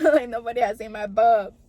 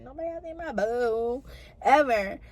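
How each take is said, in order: First: Laughing through the words, a touch louder. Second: Said in the usual way. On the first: Real, not acted. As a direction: giggle it out, embarrassed. Embarrassed exam retold with laughter.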